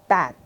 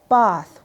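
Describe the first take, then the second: First: The vowel is a short front sound. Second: The vowel is a long open ah sound. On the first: "while in the U S, it's often a short eh" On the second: "In the U K, people might say bath with a long ba, ah sound"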